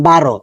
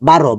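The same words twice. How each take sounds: Both takes have the same delivery.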